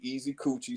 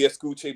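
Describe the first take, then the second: First: The name is said with four syllables. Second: The name is said with three syllables. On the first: The speaker calls it wrong. "everybody wants it to be Easy Coochie" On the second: The speaker calls it right. "It's supposed to be Escuche"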